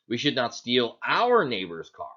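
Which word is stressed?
neighbor's. The stress falls on the word "neighbor's". Stealing someone else's car would be fine. "So is it okay if we steal somebody"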